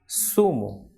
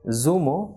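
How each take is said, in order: First: It begins with a soft hissing s sound. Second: It begins with a buzzing z sound. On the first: The speaker calls it right. "but it is sumo" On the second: The speaker calls it wrong. "not zumo"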